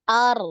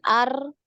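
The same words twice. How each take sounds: First: The r has a single short trill. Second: The r has a long, repeated trill. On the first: The speaker calls it right. "ini sekali" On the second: The speaker calls it wrong. "Bukan ar, ar. Nah, ini banyak"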